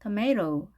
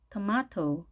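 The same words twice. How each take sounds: First: American tomato, tuh-MAY-roh; American style. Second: British tomato, tuh-MAH-toh; British style. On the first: Teacher repeating both options, American tomato as tuh-MAY-roh. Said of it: "영국식을 할 때는". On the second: Teacher repeating both options, British tomato as tuh-MAH-toh. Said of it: "T 발음을 그대로 살려서". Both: Shown as a demonstration.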